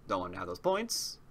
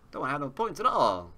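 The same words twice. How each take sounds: First: Said in the usual way. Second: "at all" pushed a bit higher and faster; emphatic repeat. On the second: Real, not acted. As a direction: insist on it, stressing "all". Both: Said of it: "repeated more emphatically".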